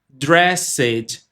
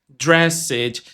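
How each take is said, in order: No difference in how they are said.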